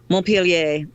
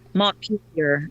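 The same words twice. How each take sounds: First: The name is said with French pronunciation. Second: The name is said with English pronunciation. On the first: "en français" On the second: "This is the very anglicized version"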